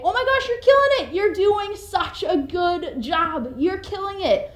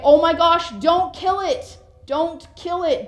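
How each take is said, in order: First: High, bright cheering praise, quick at first; enthusiastic praise. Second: Louder, higher urgent plea to spare the bug; alarmed plea. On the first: Cheering on someone doing well, gushing excitedly. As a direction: gush like a proud cheerleader. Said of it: "You can say". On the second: Pleading for a bug's life, alarmed and loud. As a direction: beg them not to squash it. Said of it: "Or you can say". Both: Shown as a demonstration.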